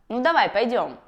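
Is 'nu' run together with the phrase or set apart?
run together. 'Nu' runs straight into the rest of the phrase. The speaker calls it right. "Вместо"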